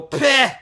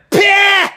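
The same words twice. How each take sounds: First: Small high-pitched mock "peh"; little scoff noise. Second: Loud high-pitched mocking "peh"; really loud scoff. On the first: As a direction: imitate his short dismissive puff. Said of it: "he made his little". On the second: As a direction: blast out an exaggerated mimicking puff. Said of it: "really loud like that".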